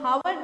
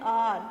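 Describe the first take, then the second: First: The word begins with an audible h sound. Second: The word begins directly with a vowel. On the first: The speaker calls it wrong. "इसको हम हावर नहीं बोलते हैं" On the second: The speaker calls it right. "क्या बोलते हैं"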